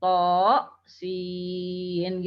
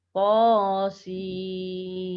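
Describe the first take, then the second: First: To with an added glottal stop, sin drawn slowly; wrong to sin. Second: To without glottal stop, sin held long; correct To sin. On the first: Teacher showing students a wrong reading, hamzah added. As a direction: snap a glottal stop onto to, then sin. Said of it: "jangan dibaca seperti ada hamzahnya". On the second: Teacher modelling the correct reading to students, long sin. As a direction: let To flow into a long sin. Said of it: "Tapi dibaca panjang". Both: Shown as a demonstration.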